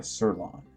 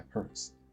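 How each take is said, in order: First: The name begins with an S sound. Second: The name begins with a pronounced P sound. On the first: The speaker calls it right. "that's probably a silent P" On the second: The speaker calls it wrong. "I think to pronounce the letter P"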